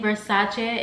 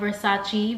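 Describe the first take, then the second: First: The name has a non-American pronunciation. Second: The name has the usual American pronunciation. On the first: "I'm going to try saying Versace" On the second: "normally I I would say Versace, and that's like a really normal thing here in America"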